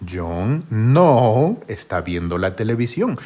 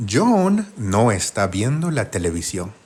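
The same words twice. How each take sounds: First: Slow down and lean hard on "no"; stress on NO. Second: Said in the usual way. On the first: Shown as a demonstration. Teacher pointing out the negative word to learners, heavy stress on "no". Rereads sentence to highlight the negation.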